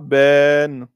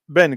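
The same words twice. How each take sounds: First: The vowel is drawn out long. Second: The vowel is kept short. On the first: The speaker calls it wrong. "vous ne direz pas Ben" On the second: The speaker calls it right. "vous direz juste Ben, comme si le alif n'était pas là"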